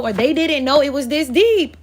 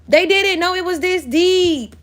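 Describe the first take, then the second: First: Said in the usual way. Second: Didn't leaned on, higher and slower; emphatic repeat. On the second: Real, not acted. Reader hammering the point to the viewer, slow emphatic didn't. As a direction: land "didn't" high and slow for weight.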